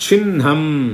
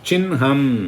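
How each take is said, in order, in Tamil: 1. நாசி ஒலி முதலில், பின்னர் h. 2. நாசி ஒலி முதலில், பின்னர் h.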